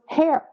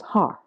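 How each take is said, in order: First: The vowel is an 'air' sound. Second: The vowel is an open 'ar' sound. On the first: This is how people in Houston say it. "And for me, it was hair" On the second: This is how people in West Texas say it. "if you're in West Texas, the word H A I R becomes har"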